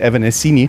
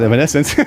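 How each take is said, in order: First: The name ends with an 'ee' vowel sound. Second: The name ends with an 'ence' sound. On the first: Some people still say it this way. The speaker calls it wrong. "some Germans would say, still say" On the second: This is what the band is called. The speaker calls it right. "but it's called"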